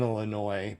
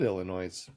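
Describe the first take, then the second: First: Said in the usual way. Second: Illinois as "illa-NOISE"; sounded final s. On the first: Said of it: "I know how to say it". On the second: Shown as a demonstration. What a non-local might say, Illinois as "illa-NOISE". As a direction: end Illinois on a voiced s. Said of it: "I might have said".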